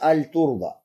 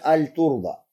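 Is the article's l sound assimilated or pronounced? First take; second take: pronounced; pronounced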